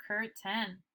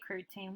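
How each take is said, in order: First: Curtain as "CUR-ten", short weak ending; natural reading of curtain. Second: Curtain as "cur-TAYN", long A ending; wrong reading of curtain. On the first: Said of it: "we say curtain". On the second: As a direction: give curtain a full "tain" ending. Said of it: "we don't say curtain". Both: Shown as a demonstration.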